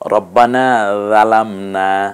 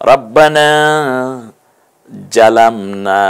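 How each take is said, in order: First: The second word starts with a soft 'dh' sound. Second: The second word starts with a 'j' sound. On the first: "রাল দিয়ে বলেছি" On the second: "জিম দিয়ে বলেছি"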